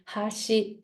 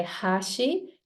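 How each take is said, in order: First: "hashi" in Japanese pitch accent meaning edge; pitch accent demo. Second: "hashi" in Japanese pitch accent meaning bridge; pitch accent demo. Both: Shown as a demonstration. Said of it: "depending on the pitch I create".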